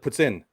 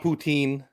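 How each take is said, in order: First: It sounds like two words, 'puts in'. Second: It sounds like one word, 'poo-teen'. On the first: The speaker calls it right. "That's how you pronounce it" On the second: The speaker calls it wrong. "not poutine"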